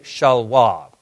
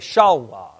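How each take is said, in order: First: The stress is on the last syllable. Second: The stress is on the first syllable.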